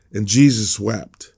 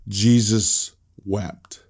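First: Said in the usual way. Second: "Jesus wept" drawn out very slowly; slow, solemn. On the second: Shown as a demonstration. Pastor repeats the shortest verse slowly and solemnly. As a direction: let each word of "Jesus wept" hang. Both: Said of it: "this is the shortest verse in the Bible".

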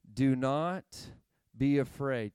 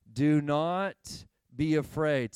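First: Said in the usual way. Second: "Do not be afraid" slow and louder, each word weighted; slow, emphatic. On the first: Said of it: "Can you say that with me". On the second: Shown as a demonstration. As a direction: lean on "Do not be afraid" like a promise. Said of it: "Can you say it again".

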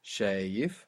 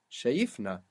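First: Shayif low, stressed on SHA; weight the first syllable of Shayif; stress on penultimate syllable. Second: Shayifna stressed on YIF; stress moved to middle. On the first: Teacher showing the second last syllable, stress on SHA in Shayif. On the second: Teacher showing the moved stress, weight on YIF in shayifna. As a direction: push the weight onto the second last syllable, YIF, in shayifna. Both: Shown as a demonstration. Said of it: "we moved the stress there".

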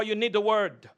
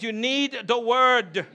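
First: Said in the usual way. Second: "need" and "word" slowly drawn out with conviction; said like you mean it. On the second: Shown as a demonstration. Preacher urging congregation to repeat, drawn-out emphatic "need". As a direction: lean hard and long on "You need the word". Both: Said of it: "say it like you mean it".

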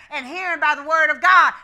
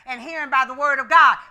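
The two takes are said the same way.

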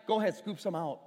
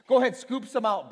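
First: Said in the usual way. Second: "Go ahead, scoop some out" repeated much louder and firmer; louder insistence. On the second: Retold or imitated. Jesus urging the servants on, louder the second time.

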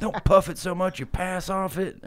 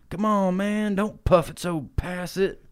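First: High voice with a laugh in it; high, giggling stoner plea; high-pitched voice, laughing through it; Grimace translated. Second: High goofy character voice, slow; high-pitched stoner creature voice; Grimace voice. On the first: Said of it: "Which means, like". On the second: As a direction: squeak it out like a stoned cartoon creature. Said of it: "Grimace is like". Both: Retold or imitated.

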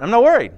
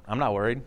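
First: Higher and louder, "I'm not worried." proclaimed with a falling "worried"; "I'm not worried" punched out, "worried" hit hard; bold declaration. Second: "I'm not worried" said quietly, stress on "not"; calm reassurance. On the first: Preacher repeats it to the congregation, loud and defiant. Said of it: "Something goes on?". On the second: Preacher first says it to himself, quiet and low. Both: Shown as a demonstration.

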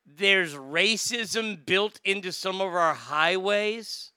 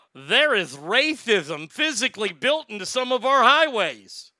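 First: Slow, incredulous echo of the quote; baffled repeat. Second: Mocking quote with a lisp, high and loud; Mayor Pete. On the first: Retold or imitated. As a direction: draw it out as a disbelieving question. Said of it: "What the fuck does that mean?". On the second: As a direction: swoop through it in a lisping mock-politician voice. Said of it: "He came out and said, quote".

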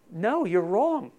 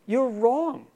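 First: Slow, weighted "wrong"; firm correction. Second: Higher, louder "wrong"; emphatic rebuttal. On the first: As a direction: lean on "wrong" slowly. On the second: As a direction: punch "wrong" up and out. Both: Real, not acted. Contradicting the listener.

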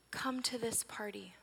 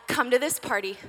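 First: Soft, slow whispered plea, "Come to this party"; gentle plea. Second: An upbeat call to celebrate; eager invitation. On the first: Acted. Mother softly begging her angry daughter to come in. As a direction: whisper the invitation tenderly and slowly. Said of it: "I don't accuse her or yell". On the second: Pretend. Mother phoning friends to celebrate, eager and upbeat. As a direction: invite them in a bright rush.

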